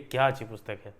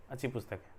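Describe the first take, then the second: First: क्या stressed in a mildly admiring exclamation; emphatic exclamation. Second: Said in the usual way. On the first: Shown as a demonstration. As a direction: give it weight with क्या up front. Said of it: "थोड़ा सा उसमें वजन देने के लिए". (क्या पर ज़ोर देकर, हल्का आश्चर्य) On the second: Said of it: "ऐसे ही बोल सकते हैं".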